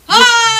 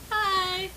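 First: It is said loudly. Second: It is said quietly.

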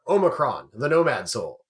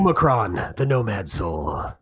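First: It is said in his normal voice. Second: It is said in a deep, menacing voice.

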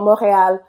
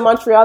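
First: It is said with a Quebec French pronunciation. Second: It is said with an English pronunciation.

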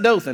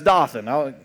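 First: It is pronounced like the Alabama town's name. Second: It is pronounced unlike the Alabama town's name. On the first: It names the town in South Alabama. The speaker calls it wrong. "it's not Dothan" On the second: It names the biblical place. The speaker calls it right. "that's Dothan"

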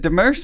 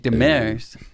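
First: The name is said with an anglicized pronunciation. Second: The name is said with a French pronunciation. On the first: This is how the family always said it. "I said Demers my whole goddamn life" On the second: This is the original French way of saying it. "the real French way is supposed to be Demers"

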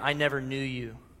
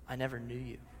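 First: It is said angrily and sharply. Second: It is said sadly, near tears.

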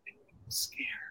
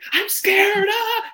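First: It is said quietly, toned down and restrained. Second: It is said loudly, building into hysteria.

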